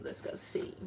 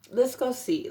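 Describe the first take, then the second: First: Whispered under her breath. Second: Said in the usual way. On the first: Real, not acted. Reader trailing off to herself over the cards, whispered. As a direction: let it drop to a whisper. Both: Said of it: "repeats the phrase, fading".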